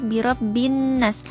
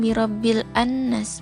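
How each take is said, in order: First: The l merges into a doubled n sound. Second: The l sound is heard before the n. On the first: The speaker calls it right. "tetapi birabbin nas. Langsung masuk ke tanda tasydid di huruf nun ini" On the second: The speaker calls it wrong. "bukan birabbil annas, bukan"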